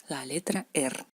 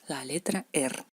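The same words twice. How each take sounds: No difference in how they are said.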